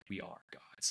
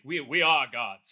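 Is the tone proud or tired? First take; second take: tired; proud. First: It sounds tired and frustrated. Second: It sounds proud and glorious.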